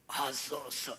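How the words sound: The voice is strained and comes from the throat. The one praying is crushed in spirit. "목구멍 소리밖에는 나오지 않습니다"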